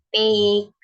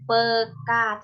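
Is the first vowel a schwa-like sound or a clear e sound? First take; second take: clear e; schwa-like. First: The first vowel is a clear, open e sound. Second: The first vowel is a short, schwa-like sound. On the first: The speaker calls it right. "tetapi P K ... menggunakan etaling" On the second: The speaker calls it wrong. "bukan peka"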